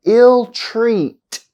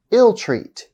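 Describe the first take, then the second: First: "Ill treat" slowly, leaning on "treat"; held second-part stress. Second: Said in the usual way. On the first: Shown as a demonstration. Teacher showing compound verb stress, slow demo. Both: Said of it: "on the second part".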